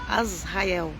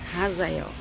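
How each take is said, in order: First: The name starts directly with a vowel sound. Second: The name starts with a light rasping h sound. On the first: "pode ser As" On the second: "O H normalmente no hebraico é Raz"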